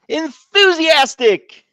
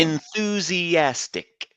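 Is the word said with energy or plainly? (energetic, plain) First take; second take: energetic; plain. First: The word is said with lively, enthusiastic energy. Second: The word is said plainly, without extra energy.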